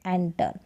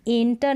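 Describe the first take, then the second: First: एंटर with an open e and a hard retroflex t; एंटर said the right way, lower and softer; एंटर with an open vowel; correct pronunciation. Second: एंटर, the way not to say it; एंटर said with a plain e; wrong pronunciation. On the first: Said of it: "इसका pronunciation है". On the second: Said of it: "इसको भी एंटर नहीं". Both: Shown as a demonstration.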